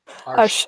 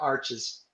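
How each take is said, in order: First: It is one syllable ending in an sh sound. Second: It is two syllables ending in a ch-iz sound. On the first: "It's arsh arsh" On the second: "It's the Yankee way of saying it"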